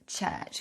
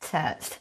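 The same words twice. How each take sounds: First: The ch sounds are clear and crisp. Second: The ch sounds are slushy and lateral.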